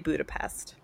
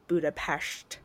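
First: It is said with a plain English pronunciation. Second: It is said with a native, local-style pronunciation. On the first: The speaker is not from there. "I would say Budapest because I'm not from there" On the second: The speaker adopts the local way of saying it. "if you're native to that area ... you would probably pronounce it Budapest"

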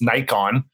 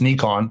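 First: It is said with the North American pronunciation. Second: It is said with the Japanese pronunciation. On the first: "North America and Europe, it's Nikon. So you get that hard, different pronunciation" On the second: "if you read it as like a Japanese word, it's Nikon"

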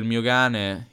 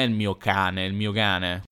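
First: The word cane begins with a g sound. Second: The word cane begins with a k sound. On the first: "la K spesso diventa G" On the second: "non è il mio cane"

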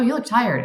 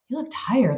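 First: It is said in a dismissive, unsympathetic tone. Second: It is said in a warm, caring tone. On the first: The remark judges the person rather than inviting a reply. The speaker calls it wrong. "there was no like, oh" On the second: The remark shows empathy and invites the person to respond. The speaker calls it right. "you just did it with your tone"

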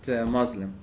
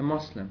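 First: The middle consonant is a buzzing z sound. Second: The middle consonant is a hissing s sound. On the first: The speaker calls it wrong. "I don't know where the Z come from" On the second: The speaker calls it right.

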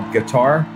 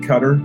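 First: It rhymes with guitar, stressed at the end. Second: It sounds like cutter, stressed at the start. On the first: This is the speaker's own habitual way of saying it. "what I like to call Qatar" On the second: This is how the local people say it. "They actually pronounce it Qatar"

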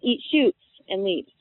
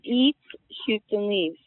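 First: It is said smoothly without pauses. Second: There are pauses after eat and shoots.

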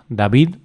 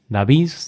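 First: The final D sounds like a D. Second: The final D sounds like a Z. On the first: "lo correcto ... es pronunciar" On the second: "la D se pronuncie como sonido Z"

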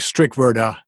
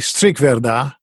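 First: The name is said with American pronunciation. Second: The name is said with Dutch pronunciation. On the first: "here in America, it's usually Strickwirda" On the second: "the Dutch would say Strickwirda"

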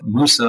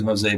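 First: It has an 'oo' vowel and ends in 'ah'. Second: It has an 'oh' vowel and ends in 'ee'. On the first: This is the original Arabic form of the name. The speaker calls it right. "it's very clearly labeled Fort Musa" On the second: This is how the name is said today. The speaker calls it wrong. "which we're pronouncing as Mosey"

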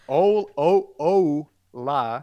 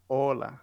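First: The first vowel glides like an English o. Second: The first vowel is a short, pure o. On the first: The speaker calls it wrong. "instead of saying "ola," which I hear that a lot" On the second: The speaker calls it right. "you will say "hola"

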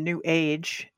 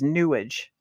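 First: It is said as two words, 'new age'. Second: It is said as one word rhyming with sewage. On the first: It names the movement neutrally. "I know you use the term new age" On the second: It mocks the movement as worthless. "I pronounce it when I'm talking about the woo stuff as newage. To rhyme with sewage"

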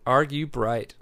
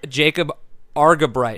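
First: The first part sounds like the word 'argue'. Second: The first part does not sound like 'argue'. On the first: The speaker calls it right. "Like, you're arguing with a bright person" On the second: The speaker calls it wrong. "You just messed up on the argue part"

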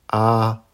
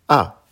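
First: The pitch stays high and level. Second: The pitch falls sharply from high to low. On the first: "Avec le premier ton" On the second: "Quatrième ton"

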